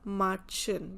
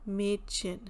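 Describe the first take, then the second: First: The first vowel is a plain A sound. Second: The first vowel is an umlaut sound. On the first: The letter carries no umlaut. The speaker calls it wrong. "if it is not the umlaut, then we'll pronounce it as Matchen because A is A" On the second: The letter carries an umlaut. The speaker calls it right. "But here we have umlaut, so that's why we are saying Mädchen"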